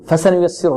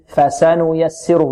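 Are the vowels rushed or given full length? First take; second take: rushed; full length. First: The short vowels are rushed and clipped. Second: Each short vowel gets its full length. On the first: The speaker calls it wrong. "ربما البعض يقول" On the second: The speaker calls it right. "لا ... نعطي الفاء ... الفتحة التي على الفاء نعطيها قدرها"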